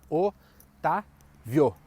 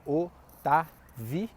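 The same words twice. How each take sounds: First: "Otávio" em três blocos: o... tá... vio; três sílabas separadas. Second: "Otávio" em quatro blocos: o... tá... vi... o; quatro sílabas separadas. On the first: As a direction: separar "Otávio" com pausas, mantendo VIO junto. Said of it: "Faz a divisão silábica de Otávio". (o, tá, vio, sílaba por sílaba) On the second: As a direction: separar também o VI do O final em "Otávio". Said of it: "a divisão silábica seja". (o, tá, vi, o, com pausa entre cada sílaba) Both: Shown as a demonstration.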